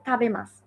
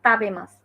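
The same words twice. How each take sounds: First: "তাবেমাসু" opening on a breathy th; correct aspirated t. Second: "তাবেমাসু" with a hard dental t, drawn out slowly; slow, plain unaspirated t opening "তাবেমাসু"; wrong unaspirated t. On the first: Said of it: "উচ্চারণটা আছে তাবেমাসু". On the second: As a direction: say "তাবেমাসু" slowly with no breath after t. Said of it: "not তাবেমাসু". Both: Shown as a demonstration.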